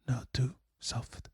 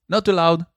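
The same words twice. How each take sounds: First: Very soft, slow whisper; barely voiced, hushed; whispered demonstration. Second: Slightly raised volume; projected, higher voice; louder demonstration. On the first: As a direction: whisper it slowly. Demonstrates softness by saying it. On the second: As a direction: say it out firmly, a touch louder. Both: Shown as a demonstration.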